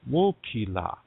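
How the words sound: The last syllable begins with an l sound. This is the Lakota dialect form. "In Lakota, we have this expression"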